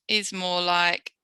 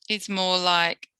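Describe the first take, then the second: No difference in how they are said.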